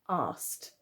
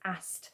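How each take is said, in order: First: It has a long 'ar' vowel. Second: It has a short flat 'a' vowel. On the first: This is how it is said in the south. "down the south... we would pronounce these letters together asked. so it's more of the A R sound" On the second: This is how it is said in the north. "especially towards the north of England, you would pronounce this as ast"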